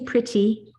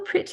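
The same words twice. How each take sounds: First: The middle T is crisply spat out. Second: The middle T sounds like a soft D. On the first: The speaker calls it wrong. "We don't say pretty" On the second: The speaker calls it right. "Oh, you look so pretty"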